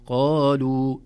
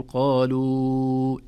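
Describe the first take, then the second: First: قالوا loud, final vowel two counts only; مد طبيعي. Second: قالوا with a very long held "luu", loud; over-stretch the end of قالوا; مد زائد خطأً. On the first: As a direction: stop on قالوا with a short natural ending. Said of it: "يمد مدا طبيعيا". (قالوا بمد طبيعي قصير) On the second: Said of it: "لا نرى علامة المد نقول". (قالوا بمد طويل عند الوقف) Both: Shown as a demonstration.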